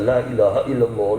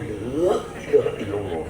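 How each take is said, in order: First: It sounds calm and devotional, like remembrance prayer. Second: It sounds exasperated, like a stressed complaint.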